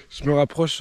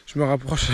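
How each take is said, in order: First: Words broken by laughter; laughing. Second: Said in the usual way. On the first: Real, not acted. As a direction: giggle through the phrase. Laughing through the same phrase.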